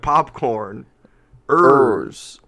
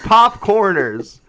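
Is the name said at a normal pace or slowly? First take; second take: slowly; normal. First: The name is said slowly, split into parts. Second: The name is said at a normal pace.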